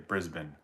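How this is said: Brisbane is said with an Australian pronunciation. "I've heard Australians say Brisbane"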